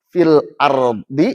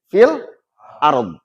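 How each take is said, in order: First: The final vowel is fully pronounced. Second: The final vowel is only faintly hinted.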